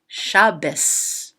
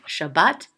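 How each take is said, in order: First: The word ends in an S sound. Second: The word ends in a T sound. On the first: "some people say it as an S" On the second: This is the modern Hebrew pronunciation. "some people say it as a T"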